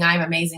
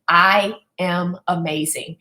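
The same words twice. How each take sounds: First: It is said flatly, without feeling. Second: It is said with emotion and conviction. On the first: The speaker is only repeating words without believing them. The speaker calls it wrong. "you're going through the motions" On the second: The speaker truly believes and feels it. The speaker calls it right. "you're saying it with emotion, you're saying it with some sort of conviction"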